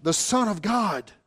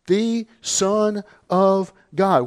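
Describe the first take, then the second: First: Said in the usual way. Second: "The Son of God" slow, every word weighted; emphatic "The Son of God". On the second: Shown as a demonstration. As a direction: lean hard on "The Son of God", slowly. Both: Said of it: "Once again, it's emphatic".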